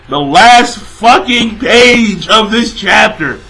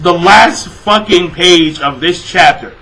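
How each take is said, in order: First: Slow, heavy stress on "last fucking page"; emphatic repeat. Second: Said in the usual way. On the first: Real, not acted.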